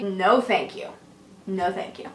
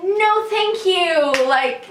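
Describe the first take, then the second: First: Lower, softer, gentle no thank you; nicely. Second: Slow, firm no thank you set high; NO drawn out, closing the subject; firm refusal. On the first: Politely refusing the stranger's kiss, gentle and soft. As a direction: let him down kindly and quietly. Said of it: "I nicely say". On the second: Turning down a stranger's kiss, slow and firm. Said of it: "And I was like". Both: Retold or imitated.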